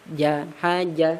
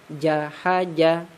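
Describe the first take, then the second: The two takes are said the same way.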